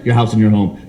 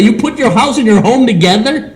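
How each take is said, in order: First: Said in the usual way. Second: High mocking ad pitch, laughing; mocking insurance ad tone. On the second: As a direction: parody the commercial up high. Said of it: "And I yell out".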